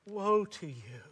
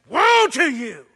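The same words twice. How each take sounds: First: It is said sadly, with a broken heart. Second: It is said angrily, like a red-faced prophet.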